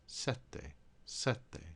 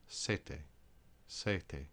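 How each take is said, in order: First: Sette holding both t's, SET-te; Italian tt geminated; double t. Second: Sete with one short t, SEH-te; Italian single t. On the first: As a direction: hit the first t, then the second. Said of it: "because there's two T's". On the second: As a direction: contrast sete with no held t. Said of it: "only one T, it would be pronounced". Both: Shown as a demonstration.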